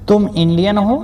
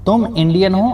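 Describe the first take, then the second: No difference in how they are said.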